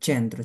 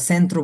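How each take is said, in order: First: "centro" said with ch, as chentro; correct pronunciation. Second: "centro" said with an s, as sentro; wrong pronunciation. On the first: Teacher answering what should be said, correct pronunciation. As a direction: say "centro" starting on a ch sound. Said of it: "কি বলতে হবে?". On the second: Teacher showing the error to avoid, wrong pronunciation. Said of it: "centro বললে হবে না". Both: Shown as a demonstration.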